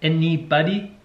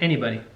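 First: Each of the three syllables is said separately. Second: The syllables are run together smoothly. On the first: This imitates a German speaker's pronunciation. "he says it like 3 distinct syllables" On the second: This is the speaker's own pronunciation. "And I say anybody"

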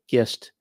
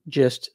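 First: The word starts with a hard G sound. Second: The word starts with a soft G sound. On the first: The speaker calls it wrong. "I've never heard anyone say gist" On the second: The speaker calls it right. "soft G"

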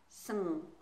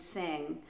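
First: The vowel is rushed and nearly dropped. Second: The vowel is fully pronounced before the ending. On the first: The speaker calls it wrong. "A lot of people rush to the end and get something like sng" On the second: The speaker calls it right. "make sure you fully pronounce the vowel first"

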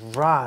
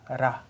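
First: The r is a smooth English-style r. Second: The r is a quick flipped tap. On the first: The speaker calls it wrong. "It's not like ra, like in English R sound" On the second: The speaker calls it right. "it is more likely to be pronounced like flipped R sound"

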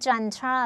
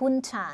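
First: It starts with a 'j' sound, British style. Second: It starts with an 'h' sound, American style. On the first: "อ่านว่าจันทราก็เป็นอ่านแบบอังกฤษ" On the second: "ถ้าฮุนชาก็เป็นแบบอเมริกันนะคะ"

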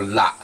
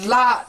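First: The word is said on a lower tone. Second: The word is said on a higher tone. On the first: It names the tea tree. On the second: It names any green leaf or plant.

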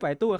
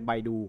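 First: The name begins with a p sound. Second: The name begins with a b sound. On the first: The way the owners themselves say it. "แต่เขาอ่านว่าไปตู้" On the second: An acceptable alternative reading. "หรืออ่านเป็นใบดูก็ได้"

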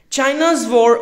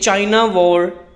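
First: China is said with a final s sound. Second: China is said without a final s sound. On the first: The speaker calls it right. "Make sure each and every word pronounced correctly till the end" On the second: The speaker calls it wrong. "they all are wrong"

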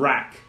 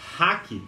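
First: The word begins with an English r sound. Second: The word begins with a breathy h sound. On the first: The speaker calls it right. "a palavra correta é rack" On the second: The speaker calls it wrong. "tá errado, guys. Não é ha, não é som de H"

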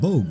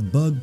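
First: The word is said with a long 'oh' vowel. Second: The word is said with a short 'uh' vowel. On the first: The speaker calls it wrong. "Why did I say Bogue? It's not Bogue" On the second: The speaker calls it right. "It's Bug Pokemon, isn't it?"

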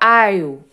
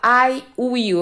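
First: Will is reduced to an attached l sound. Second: Will is said as a separate full word. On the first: "eu falo I'll" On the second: "Eu não vou falar I will"

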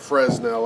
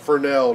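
First: The word is pronounced just as it is spelled. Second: The word is not pronounced as it is spelled. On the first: The speaker calls it wrong. "not Fresnel. I always get it mixed up because it's spelled like Fresnel" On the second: The speaker calls it right. "apparently it's pronounced Fresnel"

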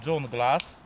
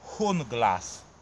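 First: The name begins with a J sound. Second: The name begins with a soft H sound. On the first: "Niektórzy mówią Junglas, no bo tak jak dżungla" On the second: "podobno się wymawia Hunglas"

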